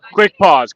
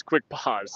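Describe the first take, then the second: First: Raised voice calling out; yelling across the room. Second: Said in the usual way. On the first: Real, not acted. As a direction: call it out to the whole room. Calls the pause to the room.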